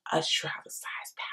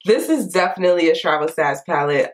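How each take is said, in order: First: Soft unvoiced whisper. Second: Said in the usual way. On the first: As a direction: whisper it like a secret. Whispered aside about palette size.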